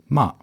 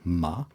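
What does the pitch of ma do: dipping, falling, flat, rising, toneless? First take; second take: falling; flat. First: The pitch falls sharply and briefly. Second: The pitch stays high and level. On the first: "der letzte Ton ist der 4. Ton" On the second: "Also ganz flach"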